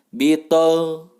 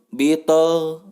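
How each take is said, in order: Both takes have the same delivery.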